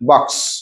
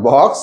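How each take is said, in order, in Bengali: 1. স্বরধ্বনিটি ছোট এবং ঝটপট শেষ হয়। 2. স্বরধ্বনিটি টেনে দীর্ঘ করে বলা হয়। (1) "শর্ট করে" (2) "নট বক্স"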